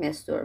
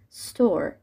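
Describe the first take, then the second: First: A vowel sound comes before the s. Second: The word starts directly with the s. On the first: The speaker calls it wrong. "تو فارسی میگیم استور" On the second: The speaker calls it right. "تلفظ درستش اینجوریه ستور"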